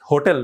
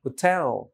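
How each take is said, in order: First: "hotel" wrongly stressed on "হো"; first-syllable stress. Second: "hotel" as ho-TEL, falling on "টেল"; second-syllable stress. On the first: Teacher rejects this way of saying it, first-syllable stress. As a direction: put the weight on "হো" in "hotel". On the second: Teacher corrects it for learners, second-syllable stress. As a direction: shorten "হো", stress and stretch "টেল". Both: Shown as a demonstration. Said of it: "hotel না, hotel".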